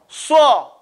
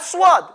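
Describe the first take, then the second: First: No w-like glide follows the s sound. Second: A w-like glide follows the s sound. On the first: The speaker calls it right. "But it's saw" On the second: The speaker calls it wrong. "It's not swad"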